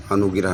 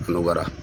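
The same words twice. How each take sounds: First: अनुगिरह with an extra i, "anu-gi-rah"; wrong form shown. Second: अनुग्रह without the i, "anu-grah"; correct pronunciation. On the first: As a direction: say अनुगिरह splitting g and r with a short i. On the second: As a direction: say अनुग्रह with g running into r. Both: Shown as a demonstration. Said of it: "अनुगिरह नहीं".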